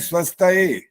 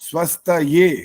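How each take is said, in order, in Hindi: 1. शब्द एक सादी e ध्वनि पर खत्म होता है। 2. शब्द ye ध्वनि पर खत्म होता है। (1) "ज्यादातर जो लोग बोल रहे थे वो बोलते हैं स्वस्थ ए" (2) "य का उच्चारण पहले हो और ए की मात्रा आनी चाहिए"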